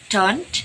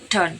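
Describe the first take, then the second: First: The final t sound is pronounced. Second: The final t sound is dropped.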